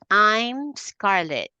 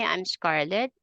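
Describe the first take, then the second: First: The important words are stretched long and louder. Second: The words are short and plain, not stretched. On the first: The speaker calls it right. "you make them stretch long and a bit loud" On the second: The speaker calls it wrong. "You don't say"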